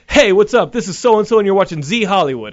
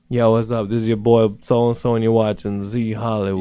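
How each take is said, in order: First: It is said in an eager, enthused tone. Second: It is said in a cool, laid-back tone.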